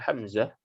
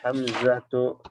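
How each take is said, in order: First: The name ends without the 'tu' syllable. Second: The name ends with a full 'tu' syllable. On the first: It is the ordinary everyday reading of the name. "baca biasa aja" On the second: It is the complete reading of the name. "ini kalau kita baca lengkap ya"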